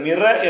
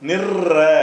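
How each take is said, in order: First: The middle consonant is short and single. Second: The middle consonant is doubled and pressed. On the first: The speaker calls it wrong. "நிற என்று சொல்லாமல்" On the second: The speaker calls it right. "அப்படி சொல்லணும்"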